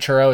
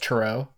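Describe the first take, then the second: First: The stress is on the first syllable. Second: The stress is on the last syllable. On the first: "Instead of like the chur" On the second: "it's the O"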